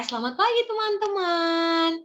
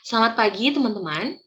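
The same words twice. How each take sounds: First: It is spoken slowly but still loudly. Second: It is spoken at a faster pace. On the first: The listeners are young children. "Boleh tetap lantang tetapi tidak cepat" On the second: The listeners are university students. "Mereka masih bisa mengikuti itu"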